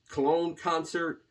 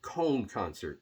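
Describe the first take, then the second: First: The city name is said as Cologne. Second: The city name is said as Cone. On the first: This is how English speakers say it. "I think it's Cologne concert" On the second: This is how people in Germany say it. "in Germany might pronounce it Cone concert"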